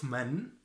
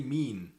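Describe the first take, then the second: First: من as short "man"; Standard Arabic pronunciation. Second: مين as long "meen"; Egyptian pronunciation. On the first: Teacher names the word being replaced, Standard Arabic pronunciation. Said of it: "So instead of". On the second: Teacher gives the dialect word for who, Egyptian pronunciation. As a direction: stretch the "ee" in مين. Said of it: "we say". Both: Shown as a demonstration.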